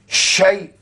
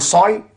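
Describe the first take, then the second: First: The syllable starts with sh and ends in ai. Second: The syllable starts with s and ends in oy. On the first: The speaker calls it right. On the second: The speaker calls it wrong.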